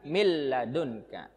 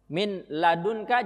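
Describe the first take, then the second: First: The n merges into a doubled l. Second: The n is pronounced before the l. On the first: This is how it is recited. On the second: This is how it is written.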